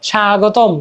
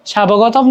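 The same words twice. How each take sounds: First: স্বাগতম said "shaa-gotom", no b; silent b. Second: স্বাবগতম said "sha-bo-goto-m"; wrongly sounded b. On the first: Teacher showing the unsounded b, careful স্বাগতম. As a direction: lengthen the first syllable of স্বাগতম, no b. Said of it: "কিন্তু উচ্চারণ হচ্ছে না". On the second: Teacher showing what we don't say, b sounded in স্বাবগতম. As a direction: put a spoken "bo" into স্বাবগতম. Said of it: "স্বাবগতম তো বলি না". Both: Shown as a demonstration.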